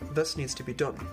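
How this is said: The vowel in 'this' is an uh sound.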